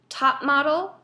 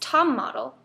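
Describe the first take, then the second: First: The first word ends with a P sound. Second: The first word ends with an M sound.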